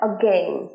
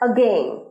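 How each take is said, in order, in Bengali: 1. Stress প্রথম সিলেবলে। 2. Stress দ্বিতীয় সিলেবলে। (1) "again নয়" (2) "গেন এর স্ট্রেসটা ফেলছি আমরা"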